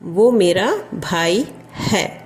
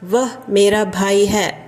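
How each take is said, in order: First: The first word is said as 'vo'. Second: The first word is said as 'vah'. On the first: This is the everyday spoken form. "வஹ் பதிலா वो தான் வரும் spoken ஹிந்தியில்" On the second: This is the written, formal form. "எழுதும்போது ரிட்டனில் வஹ்"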